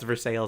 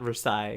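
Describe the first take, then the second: First: It is said in an English, non-French way. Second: It is said the French way. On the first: This is the local Ohio name. The speaker calls it right. "now I know it's Versailles" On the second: This is the French name. The speaker calls it wrong. "and not Versailles"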